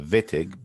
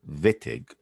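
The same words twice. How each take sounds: First: The name begins with a V sound. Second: The name begins with an English W sound. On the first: The speaker calls it right. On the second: The speaker calls it wrong.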